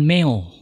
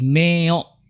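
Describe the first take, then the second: First: The o sound is not pressed or stressed. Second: The o sound is pressed and stressed. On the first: The speaker calls it wrong. "bukan meo" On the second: The speaker calls it right. "O-nya ditekan"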